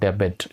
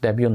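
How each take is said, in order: First: The word ends with a t sound. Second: The word ends in a vowel, no t. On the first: The speaker calls it wrong. "Not డెబెట్" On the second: The speaker calls it right. "This is డెబ్యూ"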